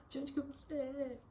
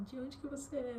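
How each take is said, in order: First: Imitating the mother, asked even higher; a delighted repeat of the question, pitched up; excited question while hugging. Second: Imitating an eager older lady, pitched higher; excited question. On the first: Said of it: "Ela me abraçou". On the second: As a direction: ask it high and delighted, like meeting someone new. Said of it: "e ela perguntou".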